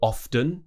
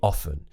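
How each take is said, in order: First: The T sound is pronounced. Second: The T sound is silent. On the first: The speaker calls it wrong. "it wouldn't be often" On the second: The speaker calls it right. "without the T"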